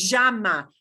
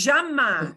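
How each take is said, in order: First: Llama with a "zh" start; Argentine accent. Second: Llama in Argentine "sha" style; Argentine accent. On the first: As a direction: say llama as "zhah-ma". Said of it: "but not llama". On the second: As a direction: say llama as "zhah-ma", Buenos Aires style. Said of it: "only if you live in Buenos Aires". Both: Shown as a demonstration.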